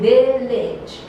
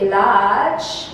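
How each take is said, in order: First: The final syllable has a short i vowel. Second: The final syllable has a vowel other than short i. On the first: The speaker calls it right. "but you say village" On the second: The speaker calls it wrong. "You don't say village"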